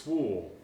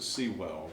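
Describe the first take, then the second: First: The name is said with one syllable. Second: The name is said with two syllables. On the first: The speaker calls it right. "but it's Swool" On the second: The speaker calls it wrong. "I always pronounce it Sewell"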